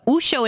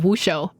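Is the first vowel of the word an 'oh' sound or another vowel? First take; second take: oh; other. First: The first vowel is an 'oh' sound. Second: The first vowel is not an 'oh' sound. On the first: "He pronounced it with an O for Wushu" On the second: "instead of"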